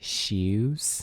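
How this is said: The word is stretched into two syllables.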